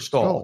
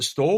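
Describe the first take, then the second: First: The vowel is an 'aw' sound. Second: The vowel is a long 'o' sound. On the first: The speaker calls it wrong. "Is it stole or stall?" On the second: The speaker calls it right. "Is it stole or stall?"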